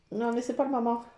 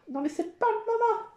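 First: Said in the usual way. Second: Much higher playful scolding; high-pitched protest. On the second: Real, not acted. Repeats it, higher, to the cat. (protestation aiguë)

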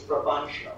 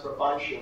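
First: "provincial" said as the name Brabantio in three syllables. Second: "provincial" said as the usual four-syllable name Brabantio. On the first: Director correcting the cast's pronunciation, "provincial" in three syllables. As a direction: squeeze "provincial" to three syllables, as bra-BAN-sho. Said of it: "is three". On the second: Director showing the cast the usual reading, "provincial" in four syllables. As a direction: give "provincial" four syllables, as bra-BAN-tee-oh. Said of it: "but that's not right". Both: Shown as a demonstration.

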